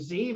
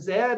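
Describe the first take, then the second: First: The letter is said the American way, zee. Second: The letter is said the Canadian way, zed.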